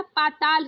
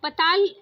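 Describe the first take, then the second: First: पाताल with a long paa; correct long first vowel. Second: पताल with a short first a; wrong short first vowel. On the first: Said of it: "पाताल होता". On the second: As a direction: say पताल as "puh-taal". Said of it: "पताल नहीं होता". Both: Shown as a demonstration.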